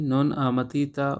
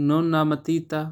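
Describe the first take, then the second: No difference in how they are said.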